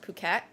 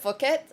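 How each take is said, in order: First: The word begins with a p sound. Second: The word begins with an f sound. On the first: The speaker calls it right. "it's pronounced Phuket" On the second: The speaker calls it wrong. "I was pronouncing it Phuket, fuck"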